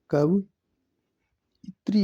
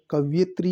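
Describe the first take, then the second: First: कवयित्री drawn out as "kavi-itri"; slow, careful "kavi...ITRI" for कवयित्री; correct pronunciation. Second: कवयित्री said as "kav-yetri"; "kav-YE-tri" for कवयित्री; first pronunciation variant. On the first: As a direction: break कवयित्री slowly before "itri". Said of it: "कवयित्री होता है ये". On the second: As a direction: use a "ye" glide in कवयित्री. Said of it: "ये शुद्ध होगा". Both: Shown as a demonstration.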